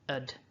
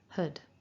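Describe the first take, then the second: First: It has a schwa vowel and no h. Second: It has a weak schwa vowel with h. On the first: "drop the H completely" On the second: "to form our weak form of had with our schwa"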